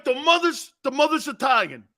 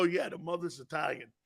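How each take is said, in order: First: High-pitched imitation of astonishment; amazed grandfather. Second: Said in the usual way. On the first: Grandfather hearing about Franco's mother, amazed. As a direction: repeat it in rising excitement, pitched up.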